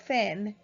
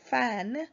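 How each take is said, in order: First: The vowel is an 'e' sound. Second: The vowel is an open 'a' sound. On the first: The speaker calls it wrong. "they pronounce it as fen" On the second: The speaker calls it right. "like fan"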